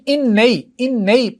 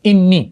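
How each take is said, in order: First: The vowel before the final ee is a. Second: The vowel before the final ee is i. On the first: The speaker calls it wrong. "پڑھنے میں ذرا دقت ہے" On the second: The speaker calls it right. "صرف اس زبر کو کیا کیا, زیر میں بدل دیا"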